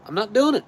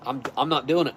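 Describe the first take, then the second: First: Doing said high and loud, rising; emphatic high. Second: Said in the usual way. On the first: Real, not acted.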